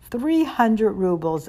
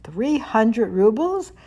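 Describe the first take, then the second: First: Slow, heavy and mournful, the sum weighing on her; a mother's slow, sad answer about the lost money; sadly. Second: Slow, rising, struck by the number; surprised question. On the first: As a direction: answer the figure sadly and slowly. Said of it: "answered the woman sadly". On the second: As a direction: repeat the sum back in slow disbelief. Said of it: "That was exactly how much". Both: A narrator's reading.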